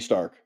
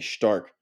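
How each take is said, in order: First: The word begins with a plain 's' sound. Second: The word begins with an 'sh' sound. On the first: "it's just spelled Stark, like Tony Stark, S T A R K" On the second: "they pronounce it S H T A R K"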